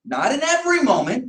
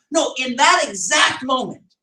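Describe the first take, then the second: First: "every" lifted and set apart from the rest; stress on every moment. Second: "that" leaned on, falling to a firm close; slowed, pointed correction on "that"; stress on that exact moment. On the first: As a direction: tip "every" up as the thing being denied. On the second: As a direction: land hard on "that" in "that exact moment". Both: Shown as a demonstration. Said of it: "Did I say in every moment?".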